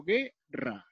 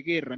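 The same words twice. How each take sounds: First: "guerra" slowly broken as gue-rra, silent u; split into syllables. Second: Said in the usual way. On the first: Shown as a demonstration. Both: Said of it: "pronuncio la sílaba".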